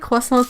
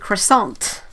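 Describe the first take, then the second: First: It is said with a careful French pronunciation. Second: It is said with an anglicized English pronunciation. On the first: Listeners will not understand it. The speaker calls it wrong. "if you say croissant too properly, they don't get it" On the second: Listeners will understand it. The speaker calls it right. "You have to say croissant"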